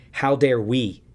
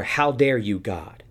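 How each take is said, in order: First: How dare we with the word we pressed hard; stress on we. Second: Imitating an indignant accusation at God; mock indignation. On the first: Real, not acted. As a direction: turn it back, punch the word we. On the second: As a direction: throw the question as the crowd's outrage. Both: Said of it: "No, no, no".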